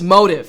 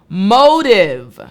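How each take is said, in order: First: The word is said quickly and lightly. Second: The word is said slowly and carefully.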